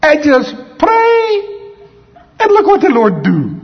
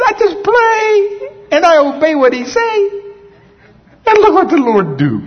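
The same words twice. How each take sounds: First: Put-on much higher, slow and louder Puerto Rican accent; a terrible Puerto Rican imitation, drawn out on "pray". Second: The same Puerto Rican imitation, now with a crying catch on "I just pray"; Puerto Rican accent. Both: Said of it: "I'm trying to speak in Puerto Rican accent".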